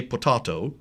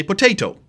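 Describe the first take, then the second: First: Potato with a broad AH, po-TAH-to; British pronunciation. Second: Potato with a long AY, po-TAY-to; American pronunciation. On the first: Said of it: "So the British say potato". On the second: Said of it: "In America, we say potato". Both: Shown as a demonstration.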